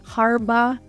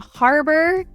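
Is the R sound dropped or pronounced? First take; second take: dropped; pronounced. First: The R sounds are dropped. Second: The R sounds are pronounced.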